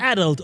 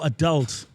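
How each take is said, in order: First: "adult" with stress on the first syllable. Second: "adult" with stress on the second syllable. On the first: Host asking which pronunciation is right, "adult" stressed up front. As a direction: say "adult" as AD-ult. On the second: Host offering the other pronunciation, "adult" stressed on the end. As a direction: say "adult" as a-DULT. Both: Shown as a demonstration. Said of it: "Is it adult or adult?".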